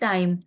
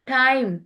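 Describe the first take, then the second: First: The t is plain, without a breath of air. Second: The t has a strong puff of air. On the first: "अपने Pakistani accent में इसको कहते हैं" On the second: "ठे की आवाज में हमने बोलना है"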